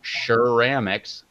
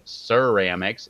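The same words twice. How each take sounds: First: The word begins with an sh sound. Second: The word begins with an s sound. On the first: The speaker calls it wrong. "There's no S H in there" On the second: The speaker calls it right. "It's definitely ceramics"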